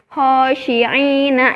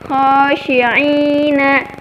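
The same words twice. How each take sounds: First: The first sound is a plain breathy h. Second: The first sound is a raspy throat sound. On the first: The speaker calls it wrong. "itu salah teman-teman" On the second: The speaker calls it right. "yang seharusnya dibacanya khosyi'ina"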